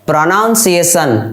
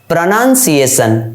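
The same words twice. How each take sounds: First: The second syllable sounds like 'noun'. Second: The second syllable sounds like 'nun'. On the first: The speaker calls it wrong. "Wrong" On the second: The speaker calls it right. "Right"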